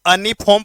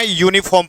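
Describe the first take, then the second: First: अनिफॉर्म started with a short 'uh', no y-glide; अनिफॉर्म said as 'uh-niform'; wrong reading. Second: यूनिफॉर्म started with a clear 'you' sound; यूनिफॉर्म said as 'you-niform' with a y-glide; correct reading. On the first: Teacher shows students the wrong way: अनिफॉर्म with a plain 'a' start. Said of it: "इसको अनिफॉर्म पढ़ेंगे". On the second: Teacher gives students the right form: यूनिफॉर्म starting on 'you'. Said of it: "यूनिफॉर्म पढ़ेंगे". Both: Shown as a demonstration.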